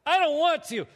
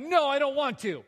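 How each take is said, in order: First: Put-on high, loud, childish refusal; a loud, high pouting whine; whiny tantrum, replayed. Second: Put-on louder, petulant child refusal; a grown man whining no at his wife; whiny tantrum. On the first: Shown as a demonstration. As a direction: act out the sulky refusal again for the crowd. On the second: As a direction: refuse like a sulking kid. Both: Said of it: "Did I say it that way? Yes".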